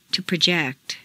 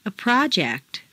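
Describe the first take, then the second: First: ProJECT, stressed on the second syllable. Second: PROject, stressed on the first syllable. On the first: Teacher models verb "project", second-syllable stress. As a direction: hit JECT in "project". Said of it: "to the second syllable". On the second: Teacher models noun "project", first-syllable stress. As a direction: hit PRO in "project". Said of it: "first syllable for nouns". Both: Shown as a demonstration.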